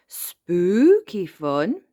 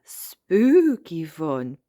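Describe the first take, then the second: First: "Spooky" stretched high, "fun" rising to a question. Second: "Spooky" drawn long and loud, "fun" settling down; slow playful echo, "Spooky" stretched, no question; amused confirmation. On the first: Child checking with granny, "Spooky fun" as rising question. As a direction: ask it with a long, loud first vowel in "Spooky". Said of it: "asked Peppa". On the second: Granny confirming to child, "Spooky fun" amused and drawn out. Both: A narrator's reading.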